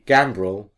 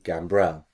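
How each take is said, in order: First: The stress is on the first syllable. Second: The stress is on the second syllable. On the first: This is the English way of saying it. "So in England, he'd be" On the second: This is the French way of saying it. "And in France, he'd be"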